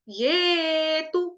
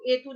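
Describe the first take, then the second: First: It starts with a 'y' sound before 'e'. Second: It starts with a plain 'e' vowel. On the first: The speaker calls it right. "य ए ये" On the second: The speaker calls it wrong. "तो एतु नहीं बोलेंगे"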